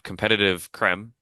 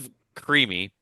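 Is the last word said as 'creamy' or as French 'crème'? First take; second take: French crème; creamy. First: The last word sounds like French 'crème'. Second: The last word sounds like English 'creamy'. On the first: The speaker calls it wrong. "it doesn't have the accent" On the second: The speaker calls it right. "you'd have to pronounce that creamy"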